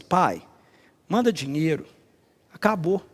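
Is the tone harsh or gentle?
gentle. It is said in a gentle, pleading tone.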